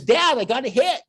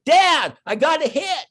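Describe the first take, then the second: First: Imitating a proud little boy, higher and louder; proud kid. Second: Son yelling across the field, much higher and louder; calling from far. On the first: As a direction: play the beaming son who thinks he did great. Son proudly reports bunt hit. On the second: Retold or imitated. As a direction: shout it from second base to dad in the stands. Son shouting from second base.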